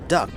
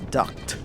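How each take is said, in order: First: The word ends in a plain K sound. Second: The word ends in a K then T sound. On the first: It names the bird that quacks. The speaker calls it wrong. "mispronounces duct tape. He thinks it's uh, duck, like quack quack" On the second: It names a pipe like an air duct. The speaker calls it right. "It's duct, like an air duct"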